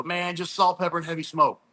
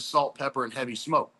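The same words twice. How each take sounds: First: Lightly raised voice of Cole giving his secret; a hint of Cole, said higher as a casual catchphrase; quoting Cole. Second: Said in the usual way. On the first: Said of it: "And he'd always go". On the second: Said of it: "I literally signed up as".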